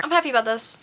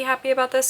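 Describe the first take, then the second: First: Said in the usual way. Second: "happy" doubled for emphasis; qualifying "happy, happy" emphasis; stress on happy. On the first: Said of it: "I mean, I'm not happy". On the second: Real, not acted. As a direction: lean into the second "happy". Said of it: "I'm not happy, happy about this".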